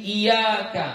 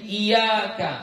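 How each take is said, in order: First: The y sound is short and single. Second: The same.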